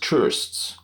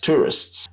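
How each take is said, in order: First: The weak vowel is dropped before the final s. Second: A weak vowel is heard before the final s.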